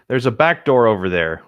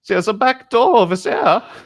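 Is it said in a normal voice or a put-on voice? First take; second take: normal; put-on. First: It is said in a normal reading voice. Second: It is said in a put-on German pig voice.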